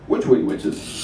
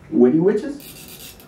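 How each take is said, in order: First: Hushed secretive whisper; whispered aside. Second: Said in the usual way. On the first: Acted. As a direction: breathe the question like a secret. Whispered after plain take.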